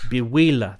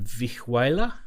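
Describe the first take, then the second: First: The word begins with a B sound. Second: The word begins with a V sound. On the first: The speaker calls it right. "pronounced with a B. That's how you say it" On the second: The speaker calls it wrong. "How do I pronounce that?"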